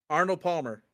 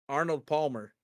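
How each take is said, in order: The two takes are said the same way.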